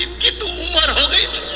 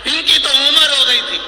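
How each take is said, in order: First: High-pitched mock wife, airy and dismissive; wife's offhand remark. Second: Louder high repeat, उम्र pressed down hard; preacher repeats the wife's line, louder, with उम्र stressed; repeated for emphasis. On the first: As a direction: toss it off in a high put-on wife's voice. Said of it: "इतने में सेठानी बोली". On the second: Shown as a demonstration. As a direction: hammer उम्र and let the line fall.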